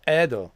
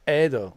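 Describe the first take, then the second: First: The first vowel is an 'eh' sound. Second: The same.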